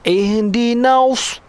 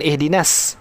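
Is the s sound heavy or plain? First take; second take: heavy; plain. First: The s sound is heavy with rounded lips. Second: The s sound is a plain, light s. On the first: The speaker calls it right. "huruf sod. Ihdinaus. Ah, kita macam kaut, mulut ni macam kaut" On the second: The speaker calls it wrong. "bukan ihdinas. Eh? Bukan huruf sin"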